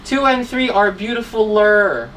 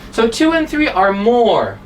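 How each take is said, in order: First: Beautifuler said as one word with an added er, marked as wrong; teacher voicing the error beautifuler; the incorrect beautifuler read out for a class; wrong form. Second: More said before beautiful with a firm stress; teacher giving the correct more beautiful; correct form. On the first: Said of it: "So it's wrong". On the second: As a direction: stress the word more as the fix. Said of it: "this is the correct sentence". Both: Shown as a demonstration.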